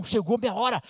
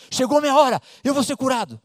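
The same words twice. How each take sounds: First: Said in the usual way. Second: Exclamação alta e animada, repetindo; empolgada. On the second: Acted. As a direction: grite de alegria, chegou a hora. (agora com força, empolgada)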